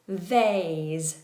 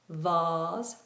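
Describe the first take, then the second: First: The vowel is an ay diphthong. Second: The vowel is a long open ah sound. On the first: This is the American pronunciation. "American English, A" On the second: This is the British pronunciation. "England is R"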